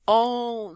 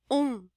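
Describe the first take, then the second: First: The nasal vowel is open. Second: The vowel is closed, almost like u. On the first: The speaker calls it wrong. "não é um on" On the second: The speaker calls it right. "é bem fechadinho, quase u"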